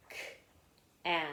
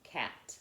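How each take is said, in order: First: "K-at" as separate k, short a, t; "K-at" sounded out letter by letter; sounding out. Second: Said in the usual way. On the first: Shown as a demonstration. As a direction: break "K-at" into its sounds with pauses. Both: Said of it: "let's practice with the word cat".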